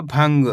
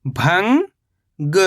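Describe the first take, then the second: First: Said in the usual way. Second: भंग as long rising "bhang", pause, "ga"; split syllables. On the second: Shown as a demonstration. Teacher breaking down भंग for learners, split syllables. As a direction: stretch भंग into two separate syllables. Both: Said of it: "तो मिलके बन जाएगा".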